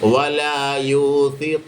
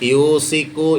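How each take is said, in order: First: The middle consonant is a th. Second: The middle consonant is a plain s. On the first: The speaker calls it right. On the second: The speaker calls it wrong.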